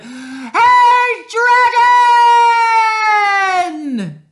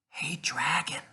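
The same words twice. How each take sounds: First: It is shouted very loudly. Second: It is whispered very softly.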